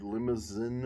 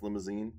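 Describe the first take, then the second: First: "limousine" ending in a short "zin"; clipped last vowel on "limousine", as a guess at French; French word attempt. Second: "limousine" ending in a long "zeen"; long ee in the last syllable of "limousine"; alternative pronunciation. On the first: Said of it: "or maybe it is pronounced". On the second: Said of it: "maybe it is pronounced limousine". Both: Shown as a demonstration.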